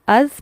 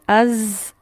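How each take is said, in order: First: The consonant is soft, tongue at tooth tips. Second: The consonant is a forceful, hissing buzz. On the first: The speaker calls it right. "इसे हम अज पढ़ेंगे" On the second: The speaker calls it wrong. "अज ये वाली साउंड से नहीं पढ़ेंगे"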